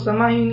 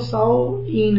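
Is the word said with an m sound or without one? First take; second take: with m; without m. First: The word is said with a clear m sound. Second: The word is said without any m sound. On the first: The speaker calls it wrong. "इसको समाहीन या सहमहीन पढ़ना गलत है" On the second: The speaker calls it right. "सही तलफ़ुज़ इसका वो साओईन है"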